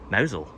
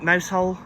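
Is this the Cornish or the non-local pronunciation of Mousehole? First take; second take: Cornish; non-local. First: It is pronounced the local Cornish way. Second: It is pronounced the non-local, outsider way. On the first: The speaker is a local. The speaker calls it right. "We say Mousehole" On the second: The speaker is not from the area. The speaker calls it wrong. "People who don't know will just pronounce it Mousehole. But that's not the Cornish way"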